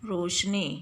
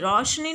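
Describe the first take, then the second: First: The first vowel is the plain vowel o. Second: The first vowel is the diphthong au. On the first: The speaker calls it right. "बल्कि क्या बोलते हैं" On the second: The speaker calls it wrong. "रौ औ नहीं बोलते हैं"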